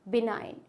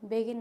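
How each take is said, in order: First: The g sound is silent in the word. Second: The g sound is pronounced in the word. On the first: The speaker calls it right. "बिनाइन पढ़ेंगे इसको" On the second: The speaker calls it wrong. "बिगिन नहीं पढ़ेंगे"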